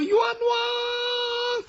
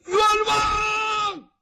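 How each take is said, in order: First: Very high, long-held cry of injustice; ghostly woman calling out her grievance; woman's wronged wail. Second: Sudden high, held shout; man hollering his grievance from outside; man's cry of injustice. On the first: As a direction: wail it high on one sustained note. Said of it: "往往出现是女生". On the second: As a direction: burst out calling for justice. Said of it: "有一个男生出来了". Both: Acted.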